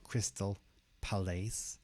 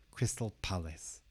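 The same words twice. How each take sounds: First: The two words are said separately. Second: The two words run together as one. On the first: The speaker calls it wrong. "Not Crystal Palace" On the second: The speaker calls it right. "we're going to kind of connect the two words together"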